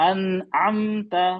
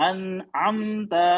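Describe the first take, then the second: No difference in how they are said.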